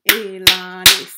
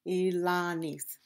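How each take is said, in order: First: Elanis in three loud beats, E-la-nis; syllable by syllable. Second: Said in the usual way. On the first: Shown as a demonstration. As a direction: punch out each syllable of Elanis. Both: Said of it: "we have three syllable word".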